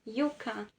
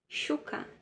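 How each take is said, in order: First: The first sound is a y sound. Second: The first sound is a sh sound. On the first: This is how it is said in Spain. "Na Espanha" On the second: This is how it is said in Argentina. "na Argentina, som de S H"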